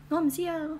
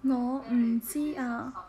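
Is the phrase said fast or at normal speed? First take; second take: fast; normal. First: It is said quickly. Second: It is said at a normal pace.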